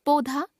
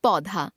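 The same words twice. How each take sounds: First: पौधा as "podha" with closed o; mispronounced au. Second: Said in the usual way. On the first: Shown as a demonstration. Teacher showing a common error, पौधा with o for au. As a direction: put "o" for "au" in पौधा. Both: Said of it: "ओ, औ संबंधी अशुद्धियां".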